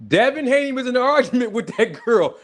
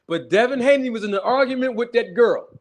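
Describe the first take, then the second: First: Higher, breaking into a laugh on the words; can't hold back the giggle; laughing through it. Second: Said in the usual way. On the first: Real, not acted. Streamer telling gossip to viewers, fighting off laughter. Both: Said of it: "I'm trying not to laugh".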